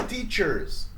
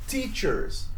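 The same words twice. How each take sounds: The two takes are said the same way.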